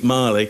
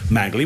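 First: The middle g is silent, sounding like Marley. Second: The middle consonant is a hard g sound. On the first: The speaker calls it right. "It's actually Marley" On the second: The speaker calls it wrong. "he thinks it's pronounced Magley"

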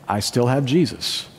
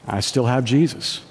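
Both takes have the same delivery.

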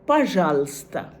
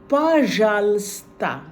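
First: The word is said at a normal pace. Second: The word is said slowly and deliberately.

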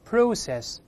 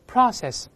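First: It is said in a British accent. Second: It is said in an American accent. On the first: "英式发音process" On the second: "美式发音process"

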